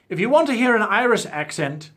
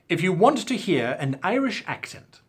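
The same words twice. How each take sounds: First: The words are slurred together. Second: The words are articulated clearly. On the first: The speaker calls it wrong. "let me try that again without slurring" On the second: The speaker calls it right. "without slurring"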